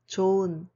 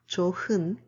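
First: The h sound in the middle is silent. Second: The h sound in the middle is pronounced. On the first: The speaker calls it right. "It's 좋은, 좋은, ... because the final consonant 흐 is a silent" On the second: The speaker calls it wrong. "not 좋은"

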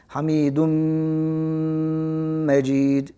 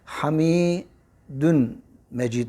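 First: The m sound is held long with nasal hum. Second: The m sound is short, not held. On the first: "Malgunne var. Mim üzerine şedde koyuyoruz ve biraz bekliyoruz"

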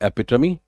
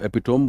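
First: The word ends in a 'tuh-mee' sound. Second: The word ends in a 'tome' sound. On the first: The speaker calls it right. "This is एपिटमी" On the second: The speaker calls it wrong. "बहुत सारे लोग इसको एपिटोम बोलते हैं, जो कि गलत है"

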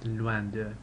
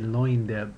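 First: Loin is said with the French vowel. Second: Loin is said like the English word. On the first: The speaker calls it right. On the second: The speaker calls it wrong. "That looks like the English word loin, but don't say"

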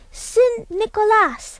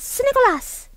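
First: It is said slowly. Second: It is said fastest.

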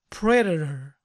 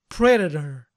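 Both takes have the same delivery.

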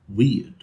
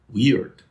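First: The R sound after the vowel is silent. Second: The R sound after the vowel is heard. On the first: "So in British English, words like ... weird, all the R's disappear" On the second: "in American English, where you say ... weird"

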